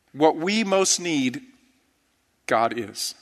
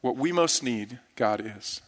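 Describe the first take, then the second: First: Slow, deliberate, each word weighted; preacher's slow emphatic statement; slow emphatic line. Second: Softer repeat, "God is." falling low; preacher's softer echo of the refrain; hushed echo. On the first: Sermon refrain, said twice. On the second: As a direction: echo "What we most need, God is." quietly, almost to yourself. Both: Acted.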